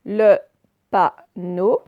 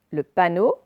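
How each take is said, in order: First: "Le panneau" broken into loud, separate syllables. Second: Said in the usual way. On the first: Shown as a demonstration. Teacher modelling a word for pupils, syllable by syllable. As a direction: pause between each syllable of "Le panneau".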